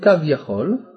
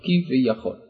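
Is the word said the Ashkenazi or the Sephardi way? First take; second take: Sephardi; Ashkenazi. First: The word is said the Sephardi way. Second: The word is said the Ashkenazi way.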